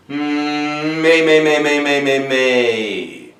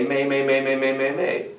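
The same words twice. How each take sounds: First: Sung, facial mask resonance. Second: Said in the usual way. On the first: Shown as a demonstration. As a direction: hum opening into loud, chanted syllables. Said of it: "in the facial mask". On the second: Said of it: "And we're going to say".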